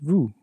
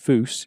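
First: The final s is left silent. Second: The final s is pronounced aloud. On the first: The speaker calls it right. "it's pronounced vous" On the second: The speaker calls it wrong. "it's not pronounced vous"

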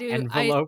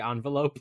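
First: The first syllable sounds like 'end'. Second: The first syllable does not sound like 'end'. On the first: This is how someone else says it. "not envelope" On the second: This is how the speaker normally says it. "I say envelope"

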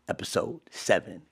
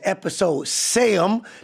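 First: Seven is said in a standard way. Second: Seven is said the regional way, like sam.

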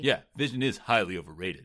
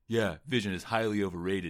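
First: It is said in a snotty, staccato imitation of Utah. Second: It is said in a plain narrating voice.

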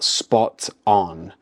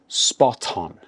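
First: The two words are said separately. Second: The two words are linked together. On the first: The speaker calls it wrong. "it's not spot on" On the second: The speaker calls it right. "We mix the two words together to sound more natural"

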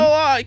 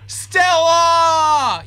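First: It is said without a full scream. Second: It is screamed loudly.

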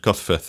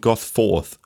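First: A plain accent with a short 'futh' ending. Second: A posh accent with a full 'forth' ending. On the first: The speaker calls it right. "you could write it as F-U-T-H. That's how it's pronounced at the end" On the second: The speaker calls it wrong. "In the really posh areas of Gosforth, people will refer to, oh, I'm from Gosforth"

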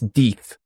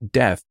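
First: The vowel is long, as in 'teeth'. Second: The vowel is short, as in 'bed'. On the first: The speaker calls it right. "it's Deeth, like D-E-E-T-H" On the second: The speaker calls it wrong. "it's not death"

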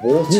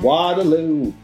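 First: The word is said with a British accent. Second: The word is said with an American accent. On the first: The speaker calls it wrong. "rather than" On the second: The speaker calls it right. "should be actually said more American"

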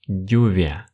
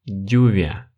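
Both takes have the same delivery.

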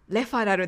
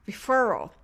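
First: It has katakana-style syllables with no r-colored vowel. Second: It has an English r-colored vowel in the middle. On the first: The speaker calls it wrong. "レファラルではなく" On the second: The speaker calls it right. "referral のfer のところでもこの手話R の母音が使われます"

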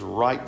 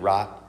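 First: The word is said with strong, drawn-out emphasis. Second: The word is said plainly without extra emphasis. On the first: "I said right like that on purpose. I just wanted to put a little emphasis on it there" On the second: "it's usually right"

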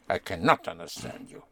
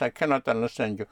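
First: The word 'not' carries special stress. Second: It is said plainly, without special stress.

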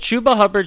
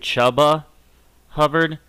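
First: The first name has an 'oo' vowel. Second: The first name has an 'uh' vowel.

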